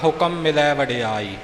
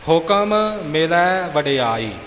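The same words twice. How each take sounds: First: It is rushed, and the two m sounds merge. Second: Each m is closed separately with the lips. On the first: The speaker calls it wrong. "ਆਪਾਂ ਇੱਥੇ ਕਾਹਲੀ ਵਿੱਚ ਪੜ੍ਹਦੇ ਹਾਂ" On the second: The speaker calls it right. "ਸਿੱਧਾ ਨਹੀਂ ਬੋਲਣਾ"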